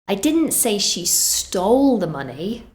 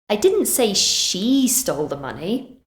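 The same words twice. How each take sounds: First: The word 'stole' carries the main stress. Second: The word 'she' carries the main stress. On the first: She got it some other way. "so that suggests she did something else" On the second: Someone else did it. "Maybe I said someone else did"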